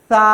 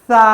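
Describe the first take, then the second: The two takes are said the same way.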